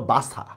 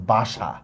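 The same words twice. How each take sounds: First: "বাসা" with a dental s, as in English S; spelling pronunciation. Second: "বাসা" with an sh sound; actual pronunciation. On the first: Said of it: "এটার উচ্চারণ হওয়া দরকার ছিল". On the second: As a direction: say "বাসা" as ba-sha, low and final. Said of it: "কিন্তু আমরা উচ্চারণ করতেছি হচ্ছে". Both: Shown as a demonstration.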